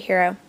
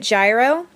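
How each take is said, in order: First: The first sound is like an H. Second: The first sound is not like an H. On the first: This is how Greeks say it. "the Greeks pronounce the G like an H" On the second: This is how most people say it. "most people pronounce it gyro"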